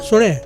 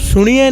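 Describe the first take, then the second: First: The word ends with a plain 'eh' sound. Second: The word ends with a 'yeh' sound. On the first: The speaker calls it right. "सुने शुद्ध बाणी" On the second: The speaker calls it wrong. "सुनिए नहीं है"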